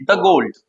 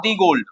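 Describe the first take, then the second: First: The said as "thuh" before gold; "the" with a short uh vowel, "thuh gold"; correct the. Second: The said as "thee" before gold; "the" with a long ee vowel, "thee gold"; wrong the. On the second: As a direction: show the mistake, "thee gold". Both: Shown as a demonstration. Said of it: "not the gold".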